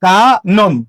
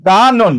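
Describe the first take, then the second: First: কানন split into kaa, then non; syllable-by-syllable pronunciation. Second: কানন as kaa-non, syllables joined; whole-word pronunciation. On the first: Teacher answers what kanon becomes, syllable by syllable. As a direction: draw out কানন in two separate syllables. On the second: Teacher repeats the answer as a whole word. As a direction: say কানন in one shorter go, o before the final n. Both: Shown as a demonstration. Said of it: "তাহলে কানন কি হবে?".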